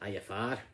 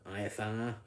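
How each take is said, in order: First: It is said with a Scottish accent. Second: It is said with a Northern English accent. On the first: "a Scottish person saying" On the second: "somebody from the north of England saying"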